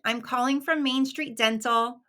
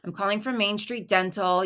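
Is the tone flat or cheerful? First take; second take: cheerful; flat. First: It sounds chipper and happy. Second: It sounds flat and unenthusiastic.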